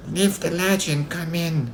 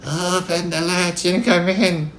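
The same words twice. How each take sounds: First: Put-on high, slow old-lady voice; slow high-pitched granny; Grandma. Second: High, slow quavering granny put on by a wolf; wolf's drawn-out mock-granny falsetto; wolf imitating Grandma. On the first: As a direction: invite the visitor in as frail Grandma. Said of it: "said Grandma". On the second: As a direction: fake an old lady's quavering little voice. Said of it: "Trying to imitate Grandma's quavering little voice". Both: A narrator's reading.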